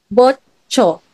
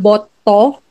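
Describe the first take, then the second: First: The consonant before the final vowel is 'ch'. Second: The consonant before the final vowel is 't'. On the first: "marireplace siya as chiit" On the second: "ganun mo siya i-pronounce kapag yan lang yung nakikita mo"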